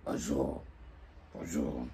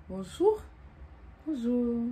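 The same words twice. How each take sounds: First: Cold grumpy bonjour. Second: Bright, louder, higher flirty hello; stylish bonjour. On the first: Woman brushing off a man's greeting, cold and closed. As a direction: mumble a cold, closed hello. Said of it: "Quand on te dit bonjour". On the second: Coach showing her friend an inviting hello, loud and bright. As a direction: greet him with charm and flair. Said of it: "Avec, euh, un certain style". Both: Shown as a demonstration.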